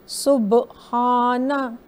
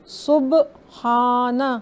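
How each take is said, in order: The two takes are said the same way.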